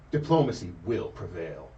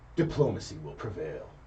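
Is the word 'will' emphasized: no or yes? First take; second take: yes; no. First: The word will is strongly emphasized. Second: The word will carries no special emphasis.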